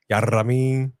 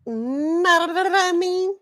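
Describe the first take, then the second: First: "Ya know what I mean" slurred into one word with a trilled r; rolled catchphrase. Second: "Know what I mean" high, hugely stretched with a wobbling trill; botched catchphrase imitation. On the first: Shown as a demonstration. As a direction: run "Ya know what I mean" together, rolling the middle. Catchphrase the co-host tries to copy. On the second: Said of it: "Yeah, you can't".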